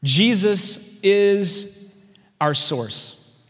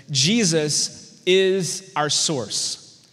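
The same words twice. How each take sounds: First: IS lifted and held long; stress on is. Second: Each word slowed and weighted; deliberate note-taking pace; slow emphatic statement. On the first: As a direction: lean hard on the word is. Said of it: "write this down". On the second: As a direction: spell it out slowly so they can write it down. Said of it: "Point one of the message is this". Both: Shown as a demonstration.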